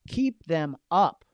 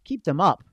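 First: Drawn-out emphasis on keep; slow, stressed keep. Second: Louder push. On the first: Coach urging agents to keep clients going, slow and firm. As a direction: stretch out KEEP slowly and firmly. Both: Shown as a demonstration.

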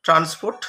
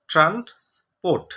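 First: Said in the usual way. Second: "ট্রান্সপোর্ট" slowly as ট্রান্স, gap, পোর্ট; teacher sounding out "ট্রান্সপোর্ট" with a pause mid-word; broken into syllables. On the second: Shown as a demonstration. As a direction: stretch "ট্রান্সপোর্ট" into two parts, falling at the end. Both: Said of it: "ভাঙলে কি হবে?".

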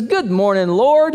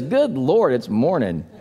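First: Cheerful greeting. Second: Groggy groan. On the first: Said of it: "he says". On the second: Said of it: "another guy gets up and he says". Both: Retold or imitated.

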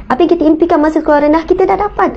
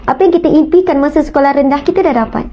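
First: Quicker, rising on dah dapat; urging the congregation, faster; faster emphatic repeat. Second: Said in the usual way. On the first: Real, not acted. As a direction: rush the repeat, then lift kita dah dapat. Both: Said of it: "repeats the line".

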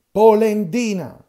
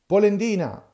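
First: Polendina yelled very loud and slow, high; slow taunting bellow at Geppetto; drawn-out shouted insult. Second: Loud, high jeering yell of Polendina; jeering yell at Geppetto; shouted insult. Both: Acted.

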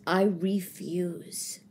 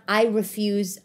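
First: "I refuse" drawn out slow and soft; a low, deliberate "I refuse"; slow emphatic vow. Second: Said in the usual way. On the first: Acted. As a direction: lean hard on each word of "I refuse". Repeats the vow, then slows it.

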